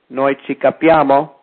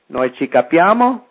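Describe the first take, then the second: First: The voice falls at the end, a statement. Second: The voice rises at the end, a question.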